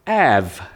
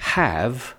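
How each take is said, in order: First: The word begins directly with a vowel. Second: The word begins with an h sound.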